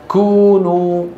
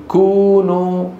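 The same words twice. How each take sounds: No difference in how they are said.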